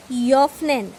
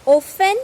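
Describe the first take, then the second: First: Joffnen with a gliding yo onset for ö; O umlaut. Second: Offen with a plain o, loud and higher; no umlaut. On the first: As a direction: say Joffnen as German öffnen, starting yo. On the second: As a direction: say Offen with a rounded back o. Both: Shown as a demonstration. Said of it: "how to pronounce this".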